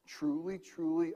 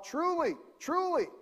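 First: Said in the usual way. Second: Elders calling out. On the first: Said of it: "when he starts a sentence". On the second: Retold or imitated. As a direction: call it out like a synagogue elder. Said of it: "the elders of the church would yell out".

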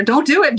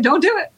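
First: High, urgent little plea; urgent warning. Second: Even higher, pleading repeat; more urgent warning. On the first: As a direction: warn her fast, pitched up. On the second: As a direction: push the warning up higher still. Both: Acted. Doll jumping, warning her.

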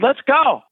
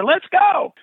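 First: Eager let's go. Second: Eager let's go, higher. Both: Retold or imitated. Eagerly accepts teaching job.

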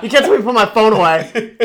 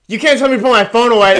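First: High, loud and laughing; bratty yell, laughing. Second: High, loud, fast bratty yell. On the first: Kid confronting a shopping cop, laughing bratty yell. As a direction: yell it while cracking up. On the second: Kid confronting a shopping cop, loud bratty yell. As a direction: shout it like a defiant teen. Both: Retold or imitated.

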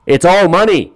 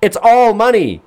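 First: Lightly voiced Steve, a bit higher and louder; mocking Steve Harvey. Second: Much higher, slow, incredulous; exasperated disbelief. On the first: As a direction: parrot Steve's line with mild mockery. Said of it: "Steve, uh". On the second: Real, not acted. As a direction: throw the line back in disbelief. Repeating Steve's line in disbelief.

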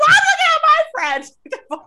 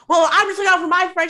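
First: Very high, loud mocking echo; she's mocked, squeaky and loud; shrill laughing mock. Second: High, loud, rushed imitation; he's mocked, loud and quick; fast loud mock. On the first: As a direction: screech it back through a laugh. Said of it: "She's like". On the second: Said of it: "he's like".

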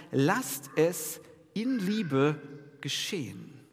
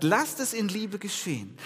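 First: Lasst es in Liebe geschehen drawn out slowly, every word weighed; slow, weighted quote. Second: Lasst hit first and higher, rest falling; stress on Lasst. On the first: Preacher contrasting Paul's passive with a command, slow and weighty. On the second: Preacher stressing the passive form, punching Lasst. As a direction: lean hard on the word Lasst. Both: Shown as a demonstration. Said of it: "Das ist ein Unterschied".

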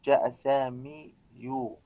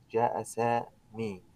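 First: جاء سامي يو said slowly with a clumsy يو ending; slow جاء سامي يو with a heavy added يو; heavy wrong ending. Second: جاء سامي slowly, no ending heard; slow, soft جاء سامي; slow demo. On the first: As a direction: show how awkward the ending sounds. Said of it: "سأضع الضمة على الياء". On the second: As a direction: spell it out word by word. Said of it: "أين هي الضمة". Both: Shown as a demonstration.

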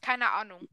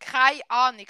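First: Said in the usual way. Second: Louder Swiss German demo. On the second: Shown as a demonstration. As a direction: say it firmly in Swiss German dialect. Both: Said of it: "heißt keine Ahnung".

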